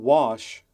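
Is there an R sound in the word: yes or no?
no. It is said without an R sound.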